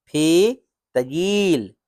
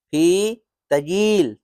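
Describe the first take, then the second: No difference in how they are said.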